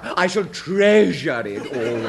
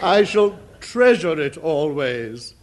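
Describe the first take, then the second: First: Hammed-up stress on the word treasure. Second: Louder, treasure swelled with mock emotion; hammed-up feeling. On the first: Shown as a demonstration. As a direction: lean hard on treasure, slow and grand. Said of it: "the emphasis on treasure". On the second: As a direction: overplay it like a ham actor. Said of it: "More feeling".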